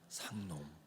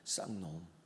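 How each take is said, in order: First: The first consonant is soft and plain. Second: The first consonant is tense and forceful.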